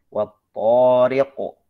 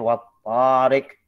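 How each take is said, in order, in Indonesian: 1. Bunyi t-nya berat dan tebal. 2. Bunyi t-nya ringan dan tipis. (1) "dijaga ketebalan huruf to" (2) "jangan sampai baca wat tarik ... kalau to masih tipis"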